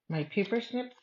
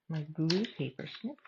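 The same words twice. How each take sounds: First: Said in the usual way. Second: Glue stressed as a correction. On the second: Real, not acted. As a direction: lean on the word glue.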